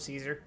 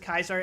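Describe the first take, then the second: First: The name starts with a soft S sound. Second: The name starts with a hard K sound. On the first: The speaker is not playing as a Legion-aligned character. "when I'm not, I just go Caesar" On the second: The speaker is playing as a Legion-aligned character. "It has the same hard C problem Caesar has. ... pronounce it as Kaiser every time I'm Legion affiliated"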